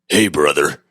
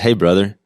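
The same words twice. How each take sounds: First: It is said imitating his friend's voice. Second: It is read in his own, somewhat unnatural voice.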